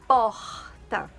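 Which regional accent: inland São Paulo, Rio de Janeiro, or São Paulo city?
Rio de Janeiro. It is said with a Rio de Janeiro accent. "do Rio de Janeiro falariam mais ou menos assim"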